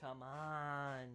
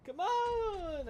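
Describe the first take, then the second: First: Said in the usual way. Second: High, loud exasperated yell; frustrated shout. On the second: Real, not acted. Frustrated at dying again.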